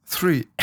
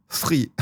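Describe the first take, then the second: First: "three" comes out as "fi", F sound and no R, falling; failed English three. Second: "Three" with the tongue under the teeth, a th then a French R; careful English three. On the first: Streamer to his chat demonstrating his bad three, resigned. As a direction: let the word three slip into fi. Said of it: "Mais honnêtement". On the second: Streamer trying the proper three for chat, careful and quiet. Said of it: "La langue sous les dents". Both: Shown as a demonstration.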